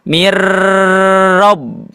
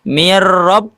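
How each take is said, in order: First: The r sound is held long. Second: The r sound is short. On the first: The speaker calls it wrong. "tidak dibaca mir rob" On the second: The speaker calls it right. "tidak ditahan lama, tapi langsung mir rob"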